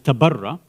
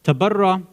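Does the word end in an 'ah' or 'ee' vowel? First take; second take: ah; ah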